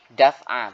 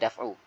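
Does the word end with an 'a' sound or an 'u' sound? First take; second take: a sound; u sound. First: The word ends with an 'a' vowel. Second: The word ends with an 'u' vowel. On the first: The speaker calls it wrong. "Terkadang ada orang yang baca gini" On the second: The speaker calls it right. "Ya di sini adalah daf'u"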